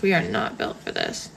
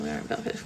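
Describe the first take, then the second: First: "are not" said in full, lower and firmer; emphatic restatement. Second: Said in the usual way. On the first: Real, not acted. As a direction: spell out "are not" firmly, lower pitch.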